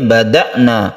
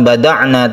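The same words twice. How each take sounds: First: The middle consonant is a glottal stop. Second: The middle consonant is a throaty 'ain' sound. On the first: The speaker calls it right. "tapi bada'na ... sukun hamzah" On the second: The speaker calls it wrong. "bukan bada'na"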